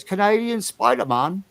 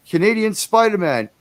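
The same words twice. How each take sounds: First: Lightly imitating Carl's delivery; a hint of Carl's voice. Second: Said in the usual way. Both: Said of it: "or as Carl says".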